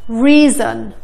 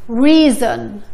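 The two takes are said the same way.

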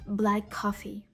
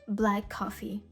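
No difference in how they are said.

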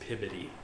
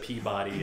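First: It is said the way locals say it. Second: It is said the way outsiders say it. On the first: The speaker is from the area. "it's Pibody" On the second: The speaker is not from the area. "instead of Peabody"

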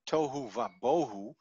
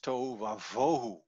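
First: The last word starts with a B sound. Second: The last word starts with a V sound. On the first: The speaker calls it wrong. "tohu va bohu is not said" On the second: The speaker calls it right. "it's a V sound"

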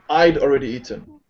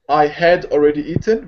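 First: The word 'had' is contracted to 'I'd'. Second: The word 'had' is said in full. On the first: "becomes I'd already eaten" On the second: "I had already eaten becomes"

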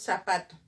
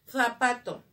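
First: The z is an s sound. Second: The z is a th sound. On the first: This is how the local speakers say it. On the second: This is the standard sound of the letter.

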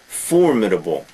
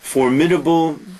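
First: The stress is on the first syllable. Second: The stress is on a later syllable. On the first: The speaker calls it right. "notice the pronunciation, the first syllable" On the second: The speaker calls it wrong.

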